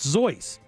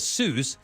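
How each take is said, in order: First: The name is said the German way. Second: The name is said the common English way. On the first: "It's the German pronunciation" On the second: "what you see as Seuss"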